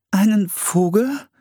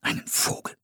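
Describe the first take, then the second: First: Slow, high, rising echo; puzzled question. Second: Soft whispered echo; whispering. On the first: Young woman echoing an odd idiom, puzzled. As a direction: ask it high, not understanding. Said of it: "fragte Priscilla". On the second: Settlers echoing an odd idiom, whispering. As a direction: repeat it in a hushed whisper. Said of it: "wiederholten die anderen flüsternd". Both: A narrator's reading.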